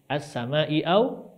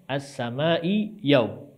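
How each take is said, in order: First: The second word starts with a glottal stop. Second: The second word starts with a y sound. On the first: "Ini kan as-sama'i au" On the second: "dibacanya as-sama'i yau"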